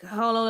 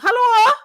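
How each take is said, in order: First: It is said in a normal voice. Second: It is said in a put-on granny voice.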